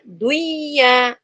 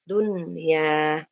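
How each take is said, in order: First: The n sound is merged away, not heard. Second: The n sound is clearly pronounced. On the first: The speaker calls it wrong. "tidak dibaca duya" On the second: The speaker calls it right. "harus jelas nun sukunnya"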